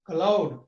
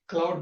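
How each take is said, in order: First: A vowel is inserted between c and l. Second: The cl cluster is said without an added vowel. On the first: The speaker calls it wrong. "the second one is a wrong pronunciation" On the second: The speaker calls it right. "Becomes means the second one is a wrong pronunciation"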